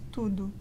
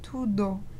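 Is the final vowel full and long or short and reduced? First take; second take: reduced; full. First: The final vowel is short and reduced. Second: The final vowel is a full, long o. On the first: The speaker calls it right. "this word is pronounced tudo" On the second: The speaker calls it wrong. "I see too many people pronouncing it like tudo"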